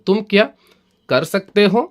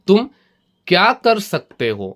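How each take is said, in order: First: Kya runs together with the word before it. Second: Kya is set apart from the word before it. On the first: It asks whether the listener is able to do it. "ഈ ക്യാ എന്നുള്ളത് തുമ്മിൻ്റെ കൂടെ കൂട്ടി പറഞ്ഞിട്ട്" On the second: It asks what the listener is able to do. "ക്യാ എന്നുള്ളത് വിട്ട് പറയുകയാണെങ്കിൽ"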